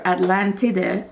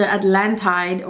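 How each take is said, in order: First: Atlantide the Italian way, slower and with its ending sounded; Italian pronunciation. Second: Said in the usual way. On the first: Shown as a demonstration. Reviewer explaining the fragrance's name to viewers, Italian pronunciation of Atlantide. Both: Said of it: "as the Italians pronounce it".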